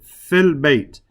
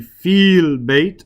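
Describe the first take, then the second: First: The vowel in the first word is cut short. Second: The vowel in the first word is held long. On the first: The speaker calls it right. "I said fil bait. I dropped the ya" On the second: The speaker calls it wrong. "I didn't say fil bait"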